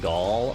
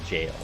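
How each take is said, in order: First: It starts with a hard g and rhymes with 'all'. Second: It starts with a j sound and rhymes with 'pale'. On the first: "I always said Gaul, like like the way I just said it" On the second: "they pronounced it jail"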